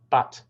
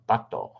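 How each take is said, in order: First: The word ends cleanly on the consonant. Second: An extra vowel is added after the consonant. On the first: The speaker calls it right. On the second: The speaker calls it wrong.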